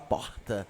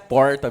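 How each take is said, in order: First: It is said in a Rio de Janeiro accent. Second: It is said in a countryside interior accent.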